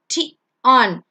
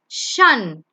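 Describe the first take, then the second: First: It is said as two syllables, tie-on. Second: It is said as one syllable, shun. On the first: The speaker calls it wrong. "you don't say it as T on" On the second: The speaker calls it right. "It's shun"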